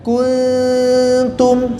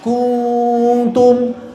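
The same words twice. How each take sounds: First: The n is light, with the tongue not touching. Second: The lips are rounded and the n sounds heavy. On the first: The speaker calls it right. "Perhatikan. Jadi lidahnya jangan nempel" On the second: The speaker calls it wrong. "Ku, monyong terus. Akhirnya tebal"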